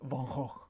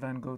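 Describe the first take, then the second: First: The name is said with a guttural Dutch pronunciation. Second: The name is said with a plain English pronunciation. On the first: "his actual real Dutch pronunciation is something like" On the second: "the plain old Anglo version"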